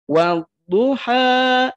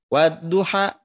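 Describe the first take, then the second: First: The final vowel is held for two beats. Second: The final vowel is held only briefly. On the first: The speaker calls it right. "Dua harokat" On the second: The speaker calls it wrong. "tidak dibaca satu harokat, ... tidak begitu"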